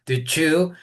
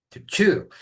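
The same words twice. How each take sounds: First: "chew" said higher and rising; "chew" pitched up with a rise; emphasized "chew". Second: "chew" said higher with a falling tune; "chew" lifted and landed firmly; emphasized "chew". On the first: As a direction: lift "chew" up at the end like a question. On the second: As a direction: stress the word "chew", dropping at the end. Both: Shown as a demonstration. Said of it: "soft and it's kind of gummy to chew".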